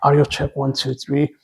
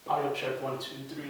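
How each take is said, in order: First: The voice sounds close and clear despite distance. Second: The voice sounds distant with more room echo. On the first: "let me run back" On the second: "this is just the sound from the camera"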